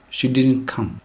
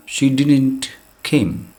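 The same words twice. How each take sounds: First: Said in the usual way. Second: Slow wrong example. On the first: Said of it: "Did is already in the past". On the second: Shown as a demonstration. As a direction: spell out "She didn't came" slowly, word by word. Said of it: "It is a, a double past".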